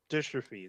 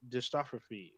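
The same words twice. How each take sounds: First: "dystrophy" in three neat syllables after a stumble; corrected pronunciation. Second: "dystrophy" botched as "dis-TOF-ro-fee"; stumbled pronunciation. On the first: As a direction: say "dystrophy" cleanly as "DIS-truh-fee". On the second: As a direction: stumble over "dystrophy" with an extra syllable. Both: Real, not acted. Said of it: "There you".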